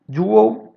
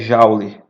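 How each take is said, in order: First: It is pronounced with an English sound. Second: It is pronounced with a Portuguese sound. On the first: "Joule é uma pronúncia correta dessa palavra em inglês" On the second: "a gente acaba portuguesando e a maioria das pessoas é, pronuncia Joule"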